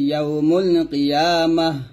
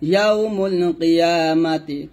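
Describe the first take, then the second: First: The last word ends with a soft h. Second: The last word ends with a t and vowel. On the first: The reading stops on this word. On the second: The reading continues without stopping.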